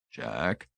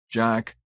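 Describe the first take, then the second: First: Low, very soft tentative call; small, hushed, lowered voice; faint. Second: Tentative call of the name, at fuller voice; mildly hesitant, pitched up a little; uncertain. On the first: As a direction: say the name faintly, hesitantly. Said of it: "he said faintly". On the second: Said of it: "Tillingford asked uncertainly". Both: A narrator's reading.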